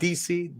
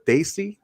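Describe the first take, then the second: First: The name is said as two letters, 'D C'. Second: The name sounds like 'Daisy', with a 'day' vowel. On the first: The speaker calls it wrong. "not D C" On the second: The speaker calls it right. "correcting the pronunciation of the word Daisy"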